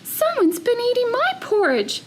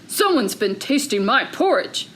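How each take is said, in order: First: It is said in a medium-sized voice. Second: It is said in a big, deep voice.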